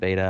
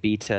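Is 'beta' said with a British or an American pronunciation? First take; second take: American; British. First: It is said with an American pronunciation. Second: It is said with a British pronunciation. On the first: This is how the speaker would say it. "instead of beta" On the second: This is how the other person says it. "You saying beta"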